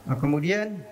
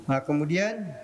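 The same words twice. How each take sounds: No difference in how they are said.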